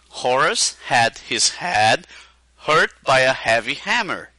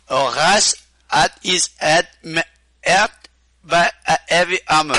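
First: It is said in plain English with h sounds. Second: It has a Québécois accent with pauses, no h.

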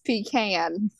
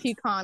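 First: It is pronounced in a Southern way. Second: It is pronounced in a non-Southern way. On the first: The speaker calls it right. "it's pecan" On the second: The speaker calls it wrong. "In the South, it's not pecan"

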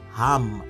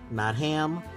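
First: The vowel sounds like the a in father. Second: The vowel sounds like the a in cat. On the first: The speaker calls it right. "Throat is Ham" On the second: The speaker calls it wrong.

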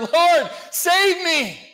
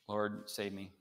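First: It is said fervently, with intense urgency. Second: It is said casually, without urgency.

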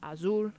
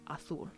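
First: Said without the Spain-style th sound. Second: Said with the Spain-style th sound. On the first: "I would say azul" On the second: "Most of people in Spain would say azul"

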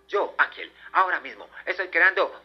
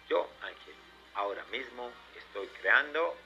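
First: It is said very fast. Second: It is said at normal speed.

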